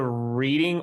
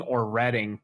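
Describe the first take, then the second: First: Reading with a long "ee"; Reading as REE-ding. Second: Reading with a short "e"; Reading as RED-ing. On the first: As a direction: say Reading like reading a book. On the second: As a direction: say Reading to rhyme with wedding. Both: Shown as a demonstration. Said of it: "do you go to Reading or Reading".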